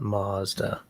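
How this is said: It is said the way Americans say it. The speaker calls it wrong. "where Americans don't get it right is by by saying by mispronouncing Mazda"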